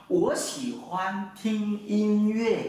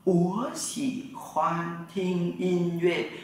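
First: Slow, careful Mandarin, word by word; teacher modeling Mandarin slowly for students; slow Mandarin model sentence. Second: Even slower, each syllable drawn out; very slow Mandarin repeat. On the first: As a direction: say it slowly for learners to repeat. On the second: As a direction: stretch every syllable for students to copy. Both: Shown as a demonstration. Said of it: "Tôi thích nghe nhạc".

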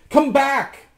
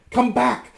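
First: High, loud call; shout. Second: High, loud cry; calling out. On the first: Rasmus climbs after his reflection, shouting. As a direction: shout it after someone fleeing. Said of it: "shouted Rasmus". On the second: Anne calls after the runaways, crying out high. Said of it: "cried Anne". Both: A narrator's reading.

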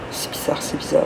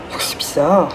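First: Breathy puzzled whisper. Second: Said in the usual way. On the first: Real, not acted. Repeats puzzled remark in whisper.

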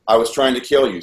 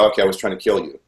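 First: Firm, slightly raised dictating voice; retold insistent dictation. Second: Resigned, slightly lowered giving-in; retold reluctant compliance. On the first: Captor orders him to confess, retold insistent dictation. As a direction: press the words on the listener. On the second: Frightened captive gives the forced confession, retold resigned compliance. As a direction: give in and repeat it dutifully.

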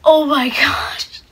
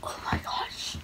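First: Louder burst of disbelief; excited. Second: Breathless stunned whisper. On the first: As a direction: blurt it out, thrilled. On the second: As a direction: whisper it in disbelief. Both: Real, not acted. Young self stunned after the win.

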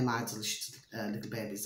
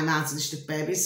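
First: Each word of "My Delicious, Little Babies" set apart, lower and much softer; careful hushed "My Delicious, Little Babies"; spelled out slowly. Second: Quick, tossed-off channel name; fast run through the name; rushed channel name. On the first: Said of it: "okay, My Delicious Little Babies". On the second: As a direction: rattle it off fast. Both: Shown as a demonstration.

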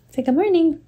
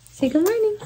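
First: Put-on high baby-talk voice. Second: Even higher sing-song prompt; baby talk. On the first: Mother prompts baby greeting. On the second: Acted. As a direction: coo it up to the baby. Repeated baby greeting, higher.

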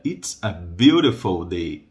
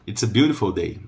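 First: Slow, drawn-out "beautiful day", lower; unhurried, lower teaching delivery; slow model. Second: Said in the usual way. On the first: Shown as a demonstration. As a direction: stretch the phrase for learners.

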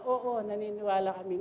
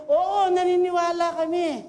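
First: Said in the usual way. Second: Louder and higher, full of conviction; ringing, certain yes; confident crowd reply. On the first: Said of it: "Yung dating sagot ng mga tao". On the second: Retold or imitated. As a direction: answer as a crowd that truly believes. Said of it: "May conviction na sila".

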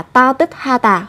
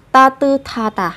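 First: "ta tức ha tà" with t stopped before a separate h; unnatural unlinked pronunciation. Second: "ta tư tha tà" with t and h merged into breathy th; natural Korean linking. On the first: Teacher shows the less natural way, unlinked "ta tức ha tà". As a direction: keep "tức" and "ha" as separate syllables. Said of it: "chỉ là không tự nhiên thôi". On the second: Teacher shows how Koreans say it, linked "ta tư tha tà". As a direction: link "tư" straight into aspirated "tha". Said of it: "Người Hàn Quốc sẽ phát âm là". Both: Shown as a demonstration.

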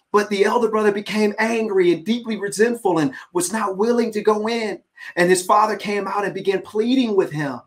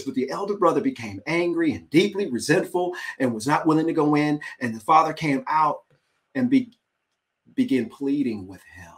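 First: Animated reading. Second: Said in the usual way. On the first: Shown as a demonstration. Preacher reading the verse to listeners, animated. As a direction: read it like it matters.

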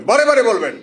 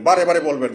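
First: Raised, insistent "বারে বারে বলবেন"; emphatic repeat. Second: Said in the usual way. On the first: Real, not acted. Repeats exhortation more forcefully to crowd.

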